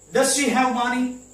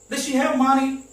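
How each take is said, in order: First: The word does is said clearly and separately. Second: The word does is swallowed in fast speech.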